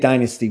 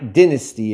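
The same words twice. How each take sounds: First: It is said the American way. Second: It is said the British way.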